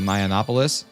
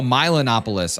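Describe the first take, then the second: First: The name is said with a 'yo' sound. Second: The name is said with a 'lo' sound. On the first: The speaker calls it wrong. "I've been saying it wrong" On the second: The speaker calls it right. "It's Milonopolis"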